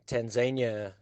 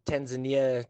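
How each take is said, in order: First: "Tanzania" as tan-ZAY-nya; three-syllable "Tanzania", tan-ZAY-nya; her pronunciation. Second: "Tanzania" as tan-zuh-NEE-uh; four-syllable "Tanzania", tan-zuh-NEE-uh; other accepted pronunciation. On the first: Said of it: "she called it Tanzania". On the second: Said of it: "both ways of saying it". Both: Shown as a demonstration.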